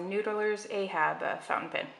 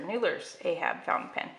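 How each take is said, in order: First: It is said slowly with a hesitation. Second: It is said quickly without hesitation.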